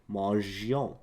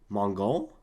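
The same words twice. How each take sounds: First: The g is soft, as in 'rouge'. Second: The g is hard, as in 'go'. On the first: The speaker calls it right. "that's how you say it" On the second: The speaker calls it wrong. "That doesn't sound right"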